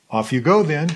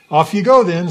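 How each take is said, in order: First: Said in the usual way. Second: Light, offhand send-off, higher and louder; breezy and casual. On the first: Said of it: "I just love the way it's translated". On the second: Shown as a demonstration. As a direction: toss it off like it's no big deal. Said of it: "It just makes it seem like, simple".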